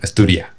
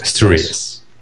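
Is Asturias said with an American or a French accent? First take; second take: French; American. First: It is said with a French accent, final s dropped. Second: It is said with an American accent. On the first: "Igual que los franceses, coloco francés que dicen Asturias. ... y se come la S al final" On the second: "yo sí he oído americanos pronunciar Asturias y se parece más a la primera. Más tipo Asturias"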